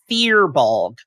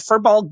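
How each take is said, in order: First: The first syllable sounds like 'fear'. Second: The first syllable sounds like 'fur'. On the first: The speaker calls it right. "In lore, is pronounced fear" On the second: The speaker calls it wrong. "fur, as in the tree, is said fur"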